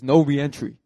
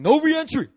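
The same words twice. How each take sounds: First: Loud, firm bouncer order; raised voice at your usual pitch; firm refusal. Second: High, loud bouncer shout; mock-angry yell, pitched way up; shouted refusal. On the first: Retold or imitated. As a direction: shut it down in a loud voice. Bouncer first refuses him entry. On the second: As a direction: bark it as a final order. Bouncer refuses again, more forcefully.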